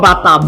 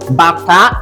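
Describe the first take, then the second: First: Said with the tone pattern meaning shoe. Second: Said with the tone pattern meaning drum. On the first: It names a shoe. The speaker calls it wrong. "Not bata. Bata is shoe" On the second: It names a drum. The speaker calls it right. "Bata is a drum"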